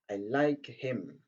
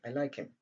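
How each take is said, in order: First: The h sound in 'him' is clearly pronounced. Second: The h sound in 'him' is dropped entirely. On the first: "Au lieu de dire" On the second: "donc on dit"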